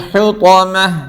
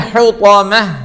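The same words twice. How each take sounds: The two takes are said the same way.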